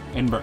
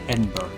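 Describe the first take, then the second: First: The name is said quickly and low, run together. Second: The name is said slowly, syllable by syllable. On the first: The speaker calls it right. "they say it really fast and low" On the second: The speaker calls it wrong. "it looks like Edinburgh"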